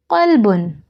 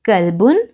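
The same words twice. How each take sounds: First: Qalbun with a deep back-of-throat q. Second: Kalbun with an ordinary front k sound; plain k kalbun. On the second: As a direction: start Kalbun with a light front k. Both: Shown as a demonstration. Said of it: "Do you hear the difference?".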